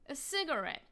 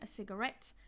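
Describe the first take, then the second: First: The stress is on the first syllable. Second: The stress is on the last syllable. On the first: This is the American way. "in the U S, they will stress the first syllable" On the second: This is the British way. "in British English, the stress on these words will be on the final syllable"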